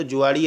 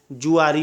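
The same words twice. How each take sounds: First: जुआड़ी with a flapped ड़ in the middle; wrong pronunciation. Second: जुआरी with a clear tapped र; correct pronunciation. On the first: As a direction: say जुआड़ी with a retroflex flap, the wrong way. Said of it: "जुआड़ी ऐसे नहीं होता है". (जुआड़ी को ड़ के साथ, गलत उच्चारण) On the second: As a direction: say जुआरी with a plain र, the right way. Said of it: "जुआरी होता है". (जुआरी को साफ़ र के साथ, सही उच्चारण) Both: Shown as a demonstration.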